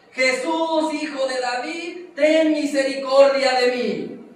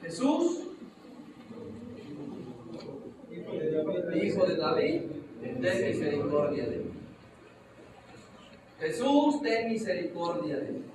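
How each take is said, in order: First: Blind man's full-voiced cry, high and loud; shouting louder. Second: Blind man crying out for mercy; calling out. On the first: Blind man shouting louder over the crowd, desperate plea. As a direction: shout it out, begging for mercy. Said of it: "Grita más fuerte". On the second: Acted. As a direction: call out to Jesus, pleading. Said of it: "Le grita".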